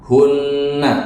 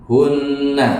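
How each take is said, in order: No difference in how they are said.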